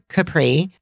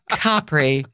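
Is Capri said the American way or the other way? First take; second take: American; other. First: The name has the common American pronunciation. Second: The name has a non-American pronunciation. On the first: It names the pants that stop below the knee. The speaker calls it wrong. "most people, Americans, pronounce it Capri" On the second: It names the island. The speaker calls it right. "That's the correct pronunciation"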